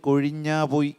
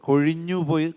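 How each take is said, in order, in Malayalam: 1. ആദ്യത്തെ വാക്ക് ദീർഘമായ 'aa' സ്വരത്തിലാണ് അവസാനിക്കുന്നത്. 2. ആദ്യത്തെ വാക്ക് ഹ്രസ്വമായ 'u' സ്വരത്തിലാണ് അവസാനിക്കുന്നത്.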